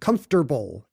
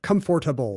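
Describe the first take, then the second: First: The T sound comes before the R sound. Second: The T sound comes after the R sound. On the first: "You like putting the T before the R instead of after" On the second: "instead of comfortable"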